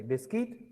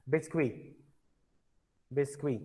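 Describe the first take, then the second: First: "biscuit" said as bis-kit, final t sounded; English "biscuit" with an audible t; English-style pronunciation. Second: "Biscuit" said as French bees-kwee, no final t; soft French "Biscuit" with the t dropped; silent T. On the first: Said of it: "sorry, biscuit". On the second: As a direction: say "Biscuit" softly, ending on kwee. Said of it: "T is silent in biscuit". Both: Shown as a demonstration.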